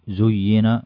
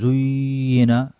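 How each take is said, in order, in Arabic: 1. تُقال الكلمة بسلاسة، دون توتر. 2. تُقال الكلمة بنطق مبالغ فيه ومتكلَّف. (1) "فتقول" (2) "ما تقول زينا"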